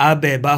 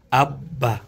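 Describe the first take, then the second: First: "আবে বা" with the first ব released as "be" before বা; wrong bounced reading. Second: "আব্বা" with ব held double, no vowel between; correct doubled reading. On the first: Teacher showing what to avoid, "আবে বা" with an echoed ব. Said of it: "আবে বা হবে না". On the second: Teacher showing the tashdid reading, "আব্বা" with a held double ব. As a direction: close on the ব of "আব্বা", hold, then release into বা. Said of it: "কিন্তু কি হবে?". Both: Shown as a demonstration.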